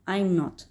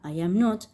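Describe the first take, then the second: First: The first two words merge into one syllable. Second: Each word is said separately, three syllables. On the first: "la forma contraída" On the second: "la forma completa"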